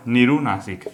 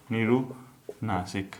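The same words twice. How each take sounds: First: Said in the usual way. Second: निरुनासिक said very slowly and softly, syllable by syllable; slow repeat. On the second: Shown as a demonstration. Teacher repeats the new term slowly for students to note. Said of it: "दूसरा निरुनासिक".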